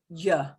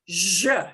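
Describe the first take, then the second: First: It is a soft 'y' sound as in yellow. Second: It is a strong buzzing 'zh' sound. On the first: This is the widely accepted pronunciation. The speaker calls it right. "like the y of yellow" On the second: The speaker is from Buenos Aires. The speaker calls it wrong. "people from the Buenos Aires area pronounce this very, very strongly"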